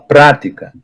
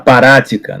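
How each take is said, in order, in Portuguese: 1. O P e o R se juntam sem vogal. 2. Uma vogal extra separa o P e o R. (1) "Você fala prática" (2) "Você não fala parática"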